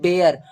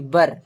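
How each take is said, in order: First: The word rhymes with 'bare' and has a long vowel. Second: The word sounds like 'bur' and has a short vowel. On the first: The speaker calls it wrong. "बेयर नहीं होता है" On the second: The speaker calls it right. "इसको उच्चारण हम लोग करेंगे W E R E, बर"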